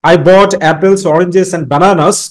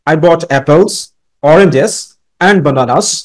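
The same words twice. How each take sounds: First: The list is run together without pausing. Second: There is a short pause after apples. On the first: The speaker lacks presentation skill. The speaker calls it wrong. "তুমি যদি এইভাবে বলো, there is no presentation" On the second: The speaker has presentation skill. The speaker calls it right. "তোমার মধ্যে presentation skills রয়েছে"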